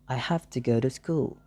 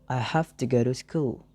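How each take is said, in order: No difference in how they are said.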